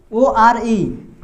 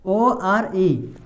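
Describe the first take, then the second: First: Very slow letter spelling. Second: Slow spelling, dropping. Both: Shown as a demonstration. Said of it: "इसमें उच्चारण क्या आ रहा है?".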